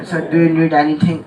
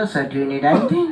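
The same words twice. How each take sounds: First: Posh English flight attendant. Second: Full-tone air hostess. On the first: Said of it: "वो पूरा English में". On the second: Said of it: "पूरी tone में बोला". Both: Retold or imitated.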